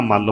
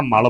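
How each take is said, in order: First: "ਮੱਲ" as mall, held double l; geminated l in "ਮੱਲ", meaning wrestler; doubled l. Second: "ਮਲ" as mal, one light l; short single l in "ਮਲ", meaning dirt. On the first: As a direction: lean on the l ending "ਮੱਲ". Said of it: "ਜੇ ਪਹਿਲਵਾਨ ਦਾ ਅਰਥ ਹੈ ਤਾਂ ਮੱਲ ਬੋਲਾਂਗੇ". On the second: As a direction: say "ਮਲ" with an undoubled l. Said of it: "ਜੇ ਮੈਲ ਦਾ ਅਰਥ ਹੈ ਤਾਂ ਮਲ ਬੋਲਾਂਗੇ". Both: Shown as a demonstration.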